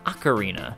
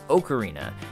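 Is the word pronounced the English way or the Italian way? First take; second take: English; Italian. First: The word has an English dictionary pronunciation. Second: The word has an Italian pronunciation. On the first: "According to both the Webster and Oxford dictionaries, ocarina is pronounced" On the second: "in Italian, the word is pronounced"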